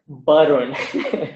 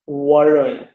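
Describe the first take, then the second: First: It begins with a b sound, lips closed. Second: It begins with a w sound, rounded lips. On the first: "or Barun" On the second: "not Varun"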